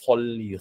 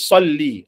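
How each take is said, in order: First: The word begins with an f-like sound. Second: The word begins with an emphatic s sound. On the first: The speaker calls it wrong. "bukan fol, folli, folli. Ha, salah" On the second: The speaker calls it right. "dia keluarkan huruf sad dengan cara yang betul"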